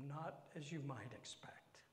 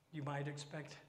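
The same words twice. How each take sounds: First: Soft unvoiced whisper; whispered hint of trouble. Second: Said in the usual way. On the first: Real, not acted. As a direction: confide it in a whisper. Whispered aside.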